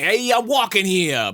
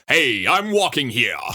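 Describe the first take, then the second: First: It is said in a lighter voice. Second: It is said in a deeper voice.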